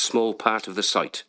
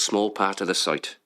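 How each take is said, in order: Both takes have the same delivery.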